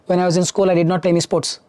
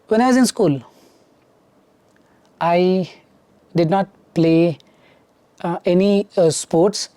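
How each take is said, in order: First: It flows smoothly without fillers or hesitant pauses. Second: It is broken by fillers and hesitant pauses. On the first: The speaker calls it right. "This speed is enough" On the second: The speaker calls it wrong. "Now the marks will go down"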